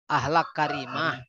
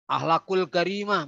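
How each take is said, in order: First: The first word ends without the 'ul' syllable. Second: The first word ends with an added 'ul' syllable. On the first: The speaker calls it right. "kan enak" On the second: The speaker calls it wrong. "mestinya dibuang aja ulnya"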